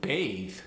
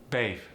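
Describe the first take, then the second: First: It ends with a th sound. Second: It ends with an f sound.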